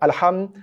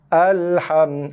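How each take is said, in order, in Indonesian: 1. Vokal awal dipotong jadi setengah harakat. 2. Vokal awal ditahan satu harakat penuh. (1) "dengan kadar kosong koma lima harakat" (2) "itu baru a satu harakat"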